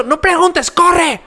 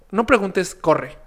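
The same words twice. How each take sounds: First: Panicked shout. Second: Said in the usual way. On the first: Retold or imitated. Warning his friend Güero at the club, shouting in panic. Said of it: "y cuando grito". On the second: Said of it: "Y yo".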